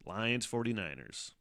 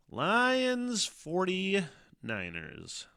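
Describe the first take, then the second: First: Said in the usual way. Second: High, slow, stretched-out hype call of "Lions forty-niners"; monster truck announcer. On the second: Pretend. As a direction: sell it like a monster truck rally ad. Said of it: "I sound like a Monster Trucks guy".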